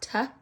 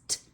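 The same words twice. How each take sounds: First: The t sound is followed by a vowel. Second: The t sound is clipped with no vowel. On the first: The speaker calls it wrong. "It's not t" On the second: The speaker calls it right. "it's t"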